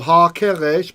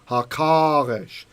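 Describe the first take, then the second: First: The middle vowel is a short e. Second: The middle vowel is a long ah. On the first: The older form before emphatic recitation. "than the segol, than the short e" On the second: The form lengthened by hitting the word hard. "ah is a longer vowel"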